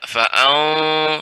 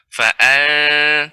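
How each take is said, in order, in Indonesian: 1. Vokalnya dinaikkan dan terdengar tebal, berat. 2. Vokalnya tetap rendah dan ringan, tidak dinaikkan. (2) "Istifal itu turunnya suara. Artinya tidak naik ke langit-langit"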